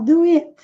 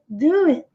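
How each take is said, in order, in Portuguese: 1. A ênfase está na última palavra. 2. A ênfase está na primeira palavra. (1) "uma forte tendência a botar ênfase no final" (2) "Mas seria do it"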